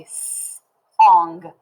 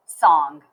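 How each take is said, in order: First: S-ong stretched slowly, each sound held apart. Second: Said in the usual way. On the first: Shown as a demonstration. Teacher to class, slowly sounding out s-ong. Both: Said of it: "We say".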